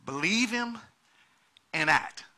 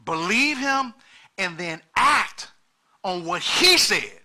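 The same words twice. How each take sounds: First: Said in the usual way. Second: "Believe him and then act on what he said" slow and punched, each word weighed; emphasize. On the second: Shown as a demonstration. Pastor driving home believing and acting, slow heavy emphasis. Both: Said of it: "let me emphasize that".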